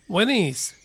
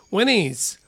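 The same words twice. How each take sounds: The two takes are said the same way.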